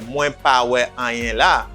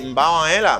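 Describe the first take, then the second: First: Each word is said separately and fully. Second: The words are run together and shortened. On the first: The speaker calls it wrong. "You don't say word by word" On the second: The speaker calls it right. "You say"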